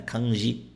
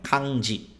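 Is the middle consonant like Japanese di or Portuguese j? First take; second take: Portuguese j; Japanese di. First: The ji is said like Portuguese j. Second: The ji is said close to di. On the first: The speaker calls it wrong. "as pessoas que não estudam japonês falam kanji" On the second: The speaker calls it right. "Não, é kanji. O som dela é di"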